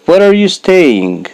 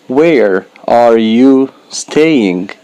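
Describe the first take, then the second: First: Said in the usual way. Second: Slow, every word of "Where are you staying?" spaced out; teacher models "Where are you staying?" slowly, word by word; slow careful model. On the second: Shown as a demonstration. Teacher to beginners, slow deliberate model. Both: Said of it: "slow model then natural".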